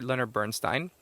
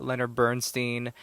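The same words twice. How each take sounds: First: Bernstein ending in "stine"; corrected pronunciation. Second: Bernstein ending in "steen"; mispronounced Bernstein. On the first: Podcaster correcting a mispronounced name, Bernstein as BURN-stine. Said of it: "I think I might have been". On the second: Podcaster listing famous burials, mispronounced Bernstein as BURN-steen. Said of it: "mispronouncing it". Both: Real, not acted.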